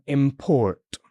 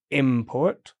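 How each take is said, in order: First: Import stressed on PORT, drawn out; verb stress on second syllable. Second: Import stressed on IM; noun stress on first syllable. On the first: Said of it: "or a verb". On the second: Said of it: "decide if it's a noun". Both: Shown as a demonstration.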